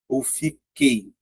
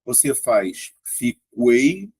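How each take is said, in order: First: Fiquei whispered slowly as fi-KEI, no U; silent U. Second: Fiquei said slowly with a sounded U, fi-KWEI; U pronounced. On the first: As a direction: drop the U in fiquei, say it soft and slow. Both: Shown as a demonstration. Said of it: "aí você vai observar".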